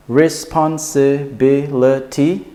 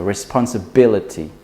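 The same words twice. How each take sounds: First: Responsibility slowly in six separate syllables, higher. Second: Responsibility joined up, BIL strongest, falling end; stress on B. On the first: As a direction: count out "responsibility" syllable by syllable, rising at the end. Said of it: "that's six syllables". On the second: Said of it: "put the stress in the B". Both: Shown as a demonstration.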